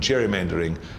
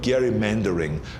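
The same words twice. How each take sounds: First: It begins with a soft J sound. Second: It begins with a hard G sound. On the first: It is the usual everyday pronunciation. The speaker calls it wrong. "rather than gerrymandering" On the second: It follows the original name it comes from. The speaker calls it right. "It should actually be called gerrymandering"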